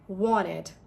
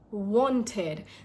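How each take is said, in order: First: The T after N is dropped. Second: The T after N is softly pronounced. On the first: "But in American accent, it's wanted" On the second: "in British accent, this is wanted"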